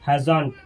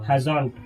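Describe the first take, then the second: First: It is merged into one short word. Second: The same.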